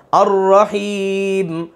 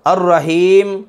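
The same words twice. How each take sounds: First: الرحیم slow with a pure long ee; correct long ee. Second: الرحیم with ee flattened toward e, as in Urdu darvesh; majhool e. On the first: استاد درست الرحیم پڑھ کر دکھاتا ہے، آہستہ اور کھینچ کر. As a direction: stretch the ee of الرحیم, clean. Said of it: "ہم نے کیسے پڑھنا؟". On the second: استاد غلط مجہول الرحیم پڑھ کر دکھاتا ہے. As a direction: say الرحیم with a flat e vowel. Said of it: "یہ غلط ہو جائے گا". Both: Shown as a demonstration.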